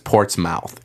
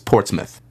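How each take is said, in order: First: It is said the American way, full final syllable. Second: It is said the British way, reduced final syllable. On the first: The speaker calls it wrong. "every American says Portsmouth" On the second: The speaker calls it right. "it's Portsmouth"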